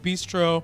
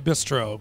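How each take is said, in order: First: It is said with a French pronunciation. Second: It is said with an American pronunciation. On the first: "if I'm feeling French" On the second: "If I'm feeling American"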